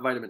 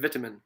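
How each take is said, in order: First: It is said with an American pronunciation. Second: It is said with a British pronunciation. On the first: "not vitamin A" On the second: "as the the Englishman would say it"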